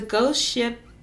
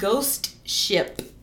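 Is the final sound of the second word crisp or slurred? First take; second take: slurred; crisp. First: The final p is slurred and unclear. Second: The final p is crisp and clearly released. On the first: The speaker calls it wrong. "It sounds like I'm saying ghost shit" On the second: The speaker calls it right.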